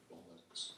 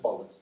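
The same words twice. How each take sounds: First: Under-the-breath curse; muttered to himself. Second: Quiet curse under the breath; muttered to himself. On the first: Comic muttering a curse to himself after a bad call. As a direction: mutter it low to yourself. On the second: Retelling the curse muttered after the throw-in. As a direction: say it low, just for yourself. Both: Retold or imitated. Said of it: "to myself".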